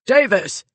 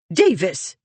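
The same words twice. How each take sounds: First: Loud, higher call up the hall; called out loud and sharp; shouting a name. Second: Voice of authority. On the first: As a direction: yell for the maid. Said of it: "and shouted". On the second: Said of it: "The voice of authority". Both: Acted.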